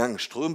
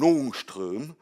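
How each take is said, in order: First: The first vowel is pronounced like 'a'. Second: The first vowel is pronounced like 'o'. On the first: This is the usual French pronunciation. "en français, tout le monde dit Angström" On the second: This follows the original Swedish pronunciation. "le A avec le petit rond au-dessus, ça se prononce O. Et donc normalement, on devrait dire un Ångström"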